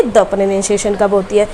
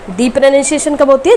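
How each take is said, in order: First: द said with a short neutral vowel, lower; "thuh" pronunciation. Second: दी said with a long ee vowel; "thee" pronunciation. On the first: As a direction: contrast द as "thuh", dropping in pitch. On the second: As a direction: contrast दी, rhyming with "see". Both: Shown as a demonstration. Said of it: "द की दो pronunciation होती है".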